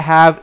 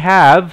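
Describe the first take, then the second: No difference in how they are said.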